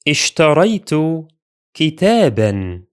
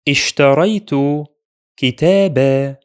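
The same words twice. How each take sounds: First: The last word ends with a short 'an' sound. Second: The last word ends with a long 'aa' vowel. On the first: "Notice the additional alif is silent when reading tanween fatha" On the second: "When we stop, we make tanween consonant ... Pronounced as a long vowel"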